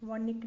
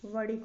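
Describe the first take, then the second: First: वणिक with dental n; wrong pronunciation. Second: वणिक with retroflex flap; correct pronunciation. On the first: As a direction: say the middle of वणिक as plain ni. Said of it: "नहीं होता". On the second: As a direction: curl the tongue mid-word in वणिक. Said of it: "होता है". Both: Shown as a demonstration.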